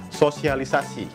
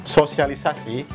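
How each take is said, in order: Both takes have the same delivery.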